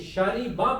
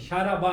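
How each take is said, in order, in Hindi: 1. 'r' के बाद का स्वर 'i' है। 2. 'r' के बाद का स्वर 'a' है। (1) "अब आप ये शारिबा पढ़ते हैं" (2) "शाराबा नहीं होता"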